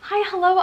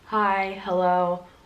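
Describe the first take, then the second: First: It is said in a lively, bubbly voice. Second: It is said in a flat, monotone voice. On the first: The listener is warmly welcomed. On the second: The listener gets little warmth or feedback.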